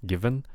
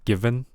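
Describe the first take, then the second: First: The v is made with teeth on lip. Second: The same.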